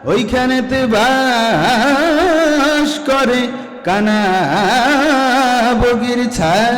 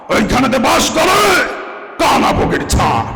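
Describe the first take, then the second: First: It is recited in a plain poetry-reading style. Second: It is declaimed like a politician's stage speech.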